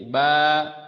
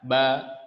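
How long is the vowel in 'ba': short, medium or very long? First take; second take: medium; short. First: The vowel is somewhat longer. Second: The vowel is fairly short. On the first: "yang agak panjang dikit ba" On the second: "Ada yang baca ba"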